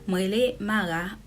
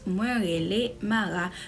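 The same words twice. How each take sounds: First: The subject pronoun is shortened to a single sound. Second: The subject pronoun is said as a full word. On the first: This is how it is said in everyday speech. "The subject is contracted" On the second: This is the formal written form. "If you were writing this very sentence"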